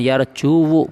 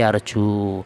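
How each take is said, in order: First: The word ends with an extra audible u vowel. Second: The word ends without any extra vowel. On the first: The speaker calls it wrong. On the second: The speaker calls it right. "tapi yarju"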